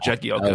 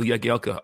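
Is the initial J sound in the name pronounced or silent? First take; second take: pronounced; silent. First: The initial J sound is pronounced. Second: The initial J sound is silent. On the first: The speaker calls it wrong. "not Jagielka" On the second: The speaker calls it right. "silent J. So I always called him Phil Jagielka after that"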